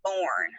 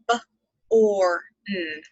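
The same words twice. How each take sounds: First: Said in the usual way. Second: "B-or-n" split into b, a long or, then n; sounded out. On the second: Shown as a demonstration. Teacher showing second grade the sounds in born, sounded out as "B-or-n". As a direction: say "B-or-n" one sound at a time. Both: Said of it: "you have b and n on".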